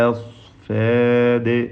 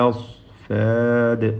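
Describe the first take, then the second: The two takes are said the same way.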